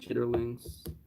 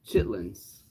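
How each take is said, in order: First: The word is said in full, three syllables. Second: The word is shortened to two syllables. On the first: The speaker calls it wrong. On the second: The speaker calls it right.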